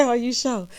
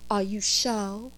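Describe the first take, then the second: First: Said in the usual way. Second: Teasing. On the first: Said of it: "she didn't say". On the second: Retold or imitated. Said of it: "I love to do that to Karen".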